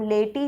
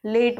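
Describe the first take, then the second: First: लेटी said with a sounded final vowel, "lay-tee"; mock-wrong लेटी with an extra "ee" at the end; wrong pronunciation. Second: लेट said as one syllable "late", final e silent; teacher models लेट with the silent e; correct pronunciation. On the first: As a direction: voice the silent e in लेटी as a clear "ee". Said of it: "हम लेटी नहीं बोलते". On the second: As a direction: clip लेट short with no vowel after the t. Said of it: "लेट बोलते हैं". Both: Shown as a demonstration.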